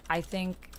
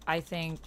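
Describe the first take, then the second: No difference in how they are said.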